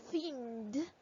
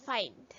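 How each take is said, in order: First: "Find" with an ee vowel, like "feend"; wrong pronunciation. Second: "find" with an "eye" vowel, falling; correct pronunciation. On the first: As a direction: blend "Find" letter by letter as f-ee-nd. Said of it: "But there's no word". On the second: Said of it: "We pronounce it as". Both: Shown as a demonstration.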